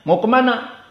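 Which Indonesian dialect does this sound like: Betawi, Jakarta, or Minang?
Jakarta. It is said in a Jakarta accent.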